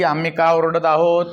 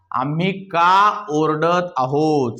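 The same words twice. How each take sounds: First: Said in the usual way. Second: Half speed, lengthened words; slow dictation. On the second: Shown as a demonstration. Teacher giving the class a sentence, slow dictation. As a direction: dictate it slowly for translation.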